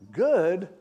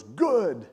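First: High, loud rising question; incredulous echo. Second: Loud, emphatic, falling verdict; blunt approval. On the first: Crying husband questions the pastor's answer, incredulous. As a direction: throw it back in disbelief, imitated. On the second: Pastor answers a crying husband, blunt and emphatic. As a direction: imitate a pastor's curt retort. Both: Retold or imitated.

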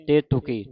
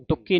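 First: ਤੇਤੁਕੀ with a light, single k; soft unstressed ਤੁਕੀ. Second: ਤੁਕੀ with a hard, doubled k, as tukki; tightened k. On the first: Teacher models the word for the congregation, soft k in ਤੇਤੁਕੀ. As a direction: say ਤੇਤੁਕੀ loosely, the k not tightened. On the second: Teacher shows the congregation what to avoid, tight doubled k in ਤੁਕੀ. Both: Shown as a demonstration. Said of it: "ਕੱਸ ਕੇ ਨਹੀਂ ਬੋਲਣਾ".

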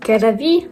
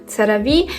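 First: CeraVe tried as "ke-ra-VEE"; variant pronunciation. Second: CeraVe tried as "tse-ra-VEE"; variant pronunciation. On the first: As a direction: try CeraVe with a hard K at the start, questioning. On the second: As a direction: start CeraVe with a TS sound, "tseravi", questioning. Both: Shown as a demonstration. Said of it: "всі говорять по-різному".

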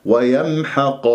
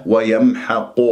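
First: Slow ويمحق with open قا; correct unrounded qaf. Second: ويمحق ending in a rounded قو; wrong lip rounding. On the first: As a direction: keep lips unrounded ending ويمحق. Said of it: "خطأ". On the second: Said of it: "إذا كورت الشفاه". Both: Shown as a demonstration.

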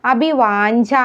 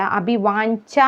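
First: അഭിവാഞ്ച with a softened final consonant; wrong pronunciation. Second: അഭിവാഞ്ച with a crisp "ncha"; correct pronunciation. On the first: Teacher showing the mistake, mispronounced അഭിവാഞ്ച. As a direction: say അഭിവാഞ്ച loosely at "ncha". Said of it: "എന്നല്ല". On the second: Teacher correcting learners, clear "ncha" in അഭിവാഞ്ച. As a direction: sound both nya and cha in അഭിവാഞ്ച. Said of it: "എന്നാണ്". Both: Shown as a demonstration.

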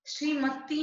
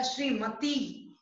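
First: श्रीमती said "sreemati", s for sh; wrong sounds. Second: Said in the usual way. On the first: Shown as a demonstration. Teacher correcting a misspelling, श्रीमती as "sreemati". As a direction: open श्रीमती on a plain s. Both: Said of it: "नहीं होता".

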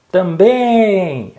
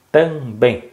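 First: High drawn-out call, "Também" held on BÉM; pretend shout. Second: "Também" split as TAM, BÉM; syllable by syllable. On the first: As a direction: shout it out to find the stressed syllable. (grito didático, com BÉM esticado) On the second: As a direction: separate the two syllables with a small gap. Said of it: "Separa pra mim". ("Também" separado em duas sílabas, tam-bém) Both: Shown as a demonstration.

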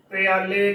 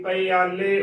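First: "ਪਿਆਲੇ" run together as pyaa-le; wrong pronunciation. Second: "ਪਿਆਲੇ" slowly, pa-i-aa-le with separate vowels; correct pronunciation. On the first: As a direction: glide straight from p into yaa in "ਪਿਆਲੇ". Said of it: "ਗਲਤ ਉਚਾਰਨ ਹੋਵੇਗਾ". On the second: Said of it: "ਉਚਾਰਨ ਕਰਨਾ ਹੈ". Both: Shown as a demonstration.

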